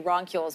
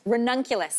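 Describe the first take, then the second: First: The word is shortened to two syllables. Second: The word is said in full with four syllables. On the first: The speaker calls it wrong. "I always say roncules" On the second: The speaker calls it right. "there is a correct way to say it"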